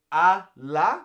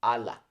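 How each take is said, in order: First: "a la" as two distinct slow words; drawn-out "a", then "la", not joined; separated words. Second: "ala" run together as one word; single joined word "ala", quicker; put together. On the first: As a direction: leave a clear gap between "a" and "la". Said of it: "it's separate". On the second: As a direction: say "ala" with no gap between "a" and "la". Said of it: "It's not put together". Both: Shown as a demonstration.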